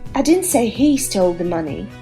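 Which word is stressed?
he. The word "he" carries the main stress. Someone else stole the money. "means I think someone else stole the money"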